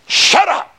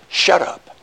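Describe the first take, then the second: First: Sharp, high shout of "Shut up!"; angry shout. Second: Said in the usual way. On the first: Retold or imitated. Husband snapping back at his wife, high angry shout. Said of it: "you say". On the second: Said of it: "when it said".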